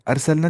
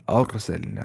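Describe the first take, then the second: First: "अरसलना" with a thin, flat "ar"; the mistaken thin R in "अरसलना"; wrongly light R. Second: "अरसलना" with a thick, rounded "ar"; Tajweed heavy ra in "अरसलना"; heavy full R. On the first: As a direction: say "अरसलना" higher, short light first syllable. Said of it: "अरसलना नहीं". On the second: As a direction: recite "अरसलना" as aar-salna, R full. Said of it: "तो मोटी आवाज़ से पढ़ना है". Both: Shown as a demonstration.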